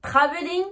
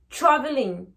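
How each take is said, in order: First: TRAVELING with hard T and French R; French-accented TR. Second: TRAVELING as "chraveling". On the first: Teacher contrasting the two, TRAVELING with French TR. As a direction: sound the T and R of TRAVELING separately. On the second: Teacher contrasting the two, TRAVELING with ch. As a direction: open TRAVELING on ch with a weak R. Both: Shown as a demonstration. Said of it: "la différence entre les deux".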